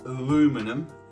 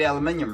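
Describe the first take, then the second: First: It is said the American way, aluminum. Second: It is said the British way, aluminium.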